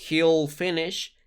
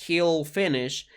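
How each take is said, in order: Both takes have the same delivery.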